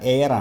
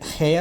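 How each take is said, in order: First: It starts with no h sound. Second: It starts with an audible h sound. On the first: The speaker calls it right. "എച്ച് silent" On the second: The speaker calls it wrong. "ഇത് ഹെയർ അല്ല"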